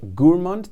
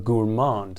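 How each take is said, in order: First: It is said with a British English pronunciation. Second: It is said with an American English pronunciation. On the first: "that's the British English equivalent" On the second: "the American pronunciation"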